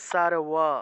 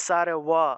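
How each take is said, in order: Both takes have the same delivery.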